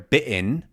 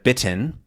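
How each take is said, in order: First: It is said with a British glottal jump. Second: It is said in an American accent.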